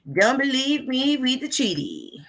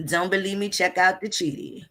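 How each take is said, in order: First: Mock-sweet high-pitched challenge; playful singsong. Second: Said in the usual way. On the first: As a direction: repeat it teasingly in a raised, lilting voice.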